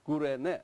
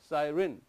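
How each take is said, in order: First: The Y is sounded as 'oo'. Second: The Y is not sounded as 'oo'.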